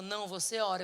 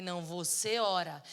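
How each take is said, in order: First: Said in the usual way. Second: VOCÊ leaned on, slow and firm; slow insistent retort stressing "você". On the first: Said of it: "Ela falou". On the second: Retold or imitated. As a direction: hand it back with a slow, louder "você". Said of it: "Eu falei".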